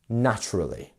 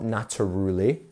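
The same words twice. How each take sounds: First: The stress is on the first syllable. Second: The stress is on a later syllable. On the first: The speaker calls it right. "First one is the stressed" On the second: The speaker calls it wrong. "Not naturally"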